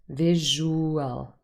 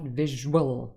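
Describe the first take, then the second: First: The middle vowels are split across two syllables. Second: The middle vowels merge into one gliding sound. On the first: The speaker calls it right. "There's no ur sound" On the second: The speaker calls it wrong. "not visual"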